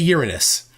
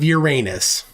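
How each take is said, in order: First: The name is pronounced the plain, unfunny way. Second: The name is pronounced the funny-sounding way. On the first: The speaker avoids the joke. "I say Uranus" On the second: The name invites a joke. "instead of Uranus"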